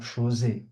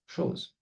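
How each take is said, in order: First: The final e is sounded aloud. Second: The final e is silent. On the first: The speaker calls it wrong. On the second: The speaker calls it right.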